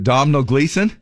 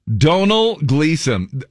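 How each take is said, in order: First: The first name is said with an M sound. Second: The first name is said without an M sound. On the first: The speaker calls it wrong. "I'm just gonna say it the way I read the name" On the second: The speaker calls it right. "The M and the H are silent"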